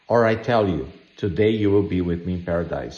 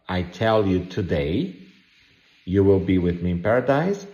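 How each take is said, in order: First: The pause comes before the word today. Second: The pause comes after the word today.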